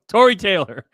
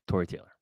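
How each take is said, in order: First: The name is said loudly with more energy. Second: The name is said at a normal, quieter volume.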